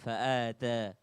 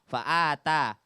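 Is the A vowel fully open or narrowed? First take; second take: narrowed; fully open. First: The A vowels are narrowed, not fully open. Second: The A vowels are fully open. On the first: The speaker calls it wrong. "Jadi jangan" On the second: The speaker calls it right. "A benar-benar A"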